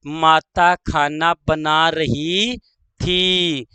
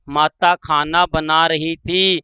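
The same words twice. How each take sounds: First: Slow, last word set apart; slow dictation. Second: Said in the usual way. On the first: Shown as a demonstration. Teacher dictating the mother example, slow dictation. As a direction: draw out the verb, pause before थी.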